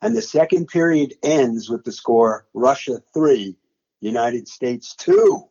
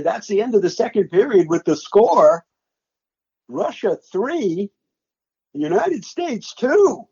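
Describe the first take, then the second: First: Said in the usual way. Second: Slow, rising announcer call climbing higher on the score; replaying his own broadcast call. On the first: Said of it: "that's exactly how I said it". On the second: Broadcaster replaying his live call of the period's final score, slow and rising. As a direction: call the score slowly like a stunned broadcaster, lifting each number. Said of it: "that's exactly how I said it in my play-by-play".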